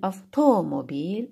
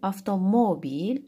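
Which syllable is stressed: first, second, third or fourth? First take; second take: second; third. First: The stress is on the second syllable. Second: The stress is on the third syllable.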